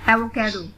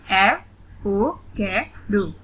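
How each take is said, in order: First: Said in the usual way. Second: "एवोकाडो" very slowly, one syllable at a time; split into syllables. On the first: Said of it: "read the word". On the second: Shown as a demonstration. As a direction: break "एवोकाडो" into four spaced beats. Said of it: "split in the syllables". ("एवोकाडो" का हर syllable अलग-अलग, धीरे)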